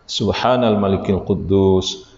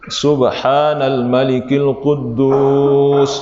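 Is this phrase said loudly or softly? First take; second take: softly; loudly. First: It is said at ordinary volume and pitch. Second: It is said louder with a raised voice.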